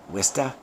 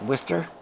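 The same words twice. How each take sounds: First: It is said in broad Massachusetts speech. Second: It is said in the standard local pronunciation. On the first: This is how Massachusetts locals say it. "in the uh, Mass vernacular" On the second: This is the accepted pronunciation. "it's pronounced Worcester"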